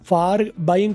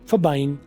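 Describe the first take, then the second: First: The word 'for' has a full vowel. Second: The word 'for' has a reduced vowel.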